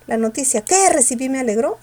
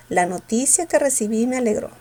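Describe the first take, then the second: First: "que" wrongly punched like an exclamation; forceful, raised "que"; stress on QUE. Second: Said in the usual way. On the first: Shown as a demonstration. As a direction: hit "que" hard mid-sentence. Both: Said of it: "¿Con fuerza o sin fuerza?".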